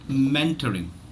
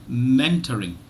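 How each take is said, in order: Both takes have the same delivery.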